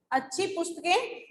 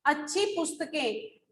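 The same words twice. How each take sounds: First: पुस्तकें said most strongly, with a rise at the end; teacher stressing पुस्तकें as a question. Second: अच्छी said most strongly, falling after it; teacher stressing अच्छी for the class. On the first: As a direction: lean on पुस्तकें, as if asking. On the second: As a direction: lean on अच्छी, not पुस्तकें. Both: Shown as a demonstration. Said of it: "किसकी विशेषता बताई गई है".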